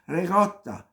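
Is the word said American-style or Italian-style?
Italian. The word is said in full Italian style. The speaker calls it right. "pronounce it the way it's spelled"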